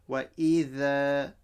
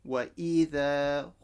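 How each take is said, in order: No difference in how they are said.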